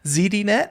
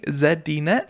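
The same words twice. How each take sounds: First: The first letter is said the American way, zee. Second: The first letter is said the Canadian way, zed.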